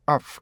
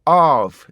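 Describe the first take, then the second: First: "of" with short open vowel, then released "f"; correct short vowel. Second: "of" as a loud, drawn-out 어; mistaken long vowel. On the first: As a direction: keep "of" short and let the f follow. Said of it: "of 이렇게 하셔야 돼요". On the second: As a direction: stretch "of" into one long "uh" beat. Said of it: "어로 돼 있어요". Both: Shown as a demonstration.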